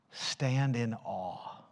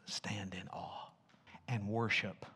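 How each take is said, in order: First: Said in the usual way. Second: "stand in awe" in a soft unvoiced whisper. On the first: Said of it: "I'm gonna give you a prescription". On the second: Shown as a demonstration. Pastor whispering the other translation in reverence. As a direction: hush to a breath on "stand in awe". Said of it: "Other translations".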